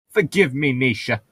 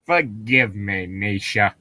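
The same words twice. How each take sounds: First: Slightly raised pitch, missing the character; hint of an accidental cartoon voice; botched Frollo voice. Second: Slower retake in character; Frollo. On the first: Frollo taking Nisha into his arms, botched character voice. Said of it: "you sound like Cleveland from Family Guy". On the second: Acted. Frollo apologising to Nisha, slow character voice. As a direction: draw the apology out, lightly in character. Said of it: "That was not my Frollo voice".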